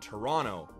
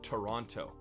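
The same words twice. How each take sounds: First: The second T sound is dropped. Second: The second T sound is clearly pronounced. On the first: The speaker is from Canada. The speaker calls it right. "Canadians drop the extra T at the end of Toronto" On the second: The speaker is not from Canada. The speaker calls it wrong. "not Toronto"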